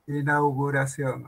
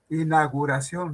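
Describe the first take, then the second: First: The u after ina- is clearly pronounced. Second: The u after ina- is left out. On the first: The speaker calls it right. "La U" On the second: The speaker calls it wrong.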